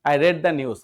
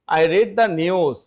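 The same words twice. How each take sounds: First: "read" pronounced like "red"; past-tense pronunciation. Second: "read" pronounced like "reed", slowly; present-tense pronunciation. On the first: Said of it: "রিডের উচ্চারণ রেড হয়ে যায়". ("read" উচ্চারণ "রেড") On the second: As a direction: say "read" with a long ee. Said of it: "রিড হচ্ছে present". ("read" উচ্চারণ "রিড") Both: Shown as a demonstration.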